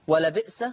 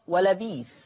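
First: The last word has a glottal stop in the middle. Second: The last word has a long i in the middle.

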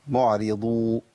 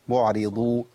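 The two takes are said the same way.

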